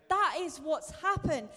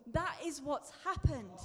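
First: Louder emphasis. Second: Said in the usual way. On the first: Real, not acted.

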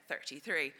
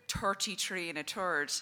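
First: Said in the usual way. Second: "thirty-three and a third" with th said as t, "torty-tree and a tord"; north Dublin pronunciation. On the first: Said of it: "I say". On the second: Retold or imitated. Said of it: "he says it".

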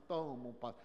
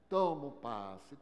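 First: Said in the usual way. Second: Slow, weighty "Tomam passe", TOMAM stressed and drawn out; mocking emphasis. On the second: Mocking believers who only take passes, slow stressed repetition. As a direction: lean on "Tomam" to mock the habit.

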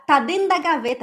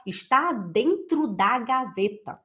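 First: Dentro swallowed into "den da", high and loud; run-together speech. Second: Dentro pronounced in full, slowly; over-careful full words. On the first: Teacher showing how people really talk, dentro clipped to "den". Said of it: "a gente junta tudo". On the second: Teacher showing what nobody says, dentro fully and slowly articulated. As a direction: sound out every syllable of "Está dentro da gaveta". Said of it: "A gente não fala". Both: Shown as a demonstration.

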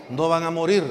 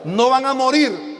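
First: Said in the usual way. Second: Devil's lie declaimed. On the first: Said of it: "Le dijo". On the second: Retold or imitated. (la mentira del diablo, fuerte y lenta)

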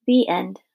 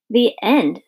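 First: Said in the usual way. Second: Indignant questioning echo. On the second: A narrator's reading. Abilene objects to the story's abrupt ending, indignant. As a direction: throw it back in indignant disbelief. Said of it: "said Abilene indignantly".

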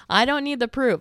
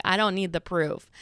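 First: Louder, higher comic insistence; raised-voice mock protest; emphatic protest. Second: Said in the usual way. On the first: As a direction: insist loudly, cutting off the offer. Repeats retort more forcefully.

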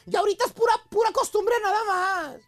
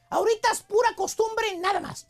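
First: Sad voice. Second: Said in the usual way. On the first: Retold or imitated. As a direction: act out a sad, resigned wife. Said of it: "con voz triste". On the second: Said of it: "Fíjate".

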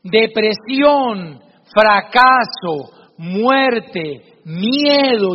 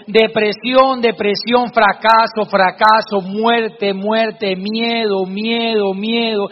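First: Very slow, each word set apart and heavy; solemn father teaching a lesson; slow, weighty words. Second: Each word said twice as an echo, fading at the end; cave echo. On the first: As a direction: lay each dark word down slowly for the boy. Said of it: "lo toma de sus hombros y le dice". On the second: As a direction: echo the father's words back from far off. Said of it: "se escuchaba en el fondo". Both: Acted.

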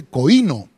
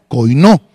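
First: Coino said with stress on the first syllable, KOI-no; first guess at the word. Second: Coinó stressed on the final O, koi-NÓ, with a rise; corrected stress. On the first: (coino con acento en la primera sílaba) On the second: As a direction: land the stress on the last O of coinó. (coinó con acento en la última O) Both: Shown as a demonstration. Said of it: "Lleva acento en la última O".

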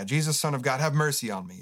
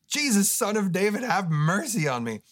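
First: Mild retold call across the road. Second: Higher, louder desperate cry; louder call. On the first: Blind man calling to Jesus, mild mock call. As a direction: call out, only a little raised. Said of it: "he shouts out". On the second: Retold or imitated. Blind man crying louder to Jesus, louder plea. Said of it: "the guy just gets louder".

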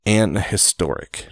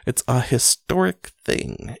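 First: "an historic" said slowly with a sounded h, to show how odd it is; "an historic", a slow demo of the awkward form; "an historic", with "an" before a voiced h, shown as the wrong form. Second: Said in the usual way. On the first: Shown as a demonstration. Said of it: "No, that is awkward".

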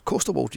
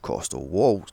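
First: "Coastal walls" echoed back, sarcastic; mocking repeat. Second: Said in the usual way. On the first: Real, not acted. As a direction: throw "Coastal walls" back at Ian with scorn. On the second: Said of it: "Coastal walls, Ian".

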